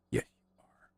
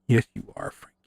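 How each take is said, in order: First: Soft whispered coo to the cat; tender whisper to a purring cat. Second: Said in the usual way. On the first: Real, not acted. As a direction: breathe it to him in a whisper. Cooing to the cat.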